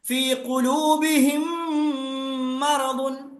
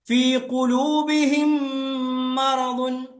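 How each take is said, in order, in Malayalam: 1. അവസാനത്തെ m അടുത്ത വാക്കിലെ m-മായി ചേർന്ന് ഒന്നാകുന്നു. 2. അവസാനത്തെ m അടുത്ത വാക്കിലെ m-മായി ചേർന്ന് ഒന്നാകുന്നു.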